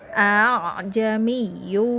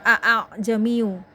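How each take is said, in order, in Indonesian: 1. Hamzah kedua dilunakkan menjadi vokal panjang. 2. Hamzah kedua dibaca penuh sebagai hamzah. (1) "hamzah kedua dibaca antara hamzah dan alif mad" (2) "agak susah kalau baca a jamiu"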